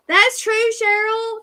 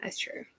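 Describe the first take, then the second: First: Excited. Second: Quiet. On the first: Agreeing with a viewer comment. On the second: Repeating the agreement to herself. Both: Real, not acted.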